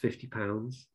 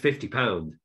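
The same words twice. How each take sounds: First: The price is said hesitantly and apologetically. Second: The price is said firmly and confidently. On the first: The seller feels unsure the item is worth it. The speaker calls it wrong. "I'm saying it with an apology" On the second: The seller is sure the item is worth it. The speaker calls it right. "it's kind of the confidence of this is this"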